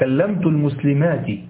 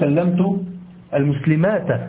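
First: The last word ends with a short 'i' vowel. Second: The last word ends with a short 'a' vowel. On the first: The speaker calls it right. "جمع المؤنث السالم ينصب بالكسرة" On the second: The speaker calls it wrong. "لا تقل"

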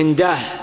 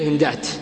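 First: The word ends with an h sound. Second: The word ends with a t sound. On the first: The speaker calls it wrong. "وقل الوقف على جمع التصحيح وشبهه بالهاء" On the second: The speaker calls it right. "الكثير هندات"

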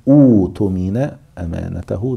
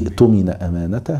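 First: The word begins with an 'u' vowel and 'oo'. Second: The word joins the previous word with no opening vowel. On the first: The reading starts fresh at this word. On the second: The reading continues from the previous word.

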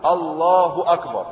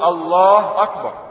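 First: A short light u follows the word Allah. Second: No vowel follows the h of Allah. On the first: The speaker calls it right. "ضمة خفيفة" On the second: The speaker calls it wrong. "لماذا سكننا لفظ الجلالة"

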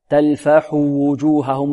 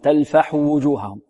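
First: The u vowel after the h is fully sounded. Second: The u vowel after the h is clipped short. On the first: The speaker calls it right. "لابد من إتيان بالضمة كاملة" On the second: The speaker calls it wrong. "لا ينطقها طالب بخطف الضمة هنا"

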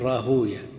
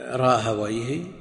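First: The name ends in a '-uyah' syllable. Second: The name ends in a '-wayh' syllable. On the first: This is how hadith scholars pronounce it. The speaker calls it wrong. "أما أهل الحديث فيقول" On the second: This is how language scholars pronounce it. The speaker calls it right. "عند أهل اللغة"

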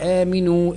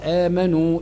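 First: The middle syllable has an i vowel. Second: The middle syllable has no i vowel. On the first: It orders people to believe. "النون تحتها كسره" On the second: It reports that they believed. "النون على ضمه"

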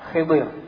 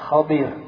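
First: The first vowel is i, the second vowel dropped. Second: The first vowel is a, the second i. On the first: "Di kasrah kha-nya, di sukun dad-nya" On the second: "yang paling fasih adalah Khidir. Di fathah kha-nya, di kasrah dad-nya"

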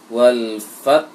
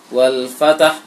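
First: The t is breathy and flows straight into h. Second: An extra vowel is inserted between t and h. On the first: The speaker calls it right. "Di bersertaan angin ta dengan ha keluar" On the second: The speaker calls it wrong. "wal fatah salah juga"

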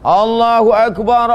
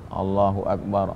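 First: It is said loudly, in a strong voice. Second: It is said very quietly, barely audible. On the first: The people outside could hear it. "Itu menunjukkan suara Nabi keras" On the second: The people outside would not hear it. "Seandainya diucapkannya dalam hati, kalau tak percaya kita matikan"

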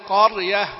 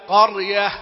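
No difference in how they are said.

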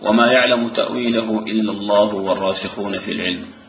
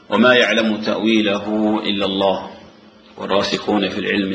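First: There is no pause after 'إلا الله'. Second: There is a pause after 'إلا الله'. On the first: Those firm in knowledge also know its interpretation. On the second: Only God knows its interpretation.

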